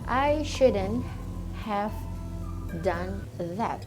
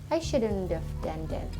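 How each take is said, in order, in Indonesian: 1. Setiap kata diucapkan terpisah dan jelas. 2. Kata-katanya menyatu menjadi satu aliran yang tersambung. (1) "Tulisannya adalah" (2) "Pronunciation-nya digabungkan"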